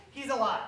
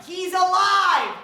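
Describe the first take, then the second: First: Quiet laugh. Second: Said in the usual way. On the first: Acted. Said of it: "repeated quietly with a laugh". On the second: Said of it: "insisting the host is alive".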